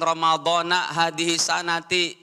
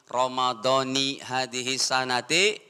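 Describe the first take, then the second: First: The word Ramadhan ends with an 'a' vowel. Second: The word Ramadhan ends with an 'i' vowel. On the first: The speaker calls it wrong. "jangan Ramadhana hadhihi sanati, itu salah grammar Arabnya" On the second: The speaker calls it right. "Jadi dibaca"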